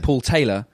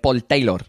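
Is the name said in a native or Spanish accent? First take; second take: native; Spanish. First: The name is said in the speaker's native accent. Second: The name is said in a Spanish accent. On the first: "whereas I'd say Paul Taylor" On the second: "The emphasis is on a different place"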